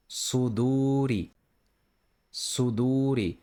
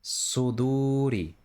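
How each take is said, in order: First: Suduri with a thick emphatic s. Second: Suduri slow, with an even thicker s; thicker emphatic s. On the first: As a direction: press the tongue back for the s in Suduri. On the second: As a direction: make the s in Suduri heavier still. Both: Shown as a demonstration. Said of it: "just try to pronounce it thicker".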